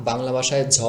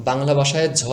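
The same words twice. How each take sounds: No difference in how they are said.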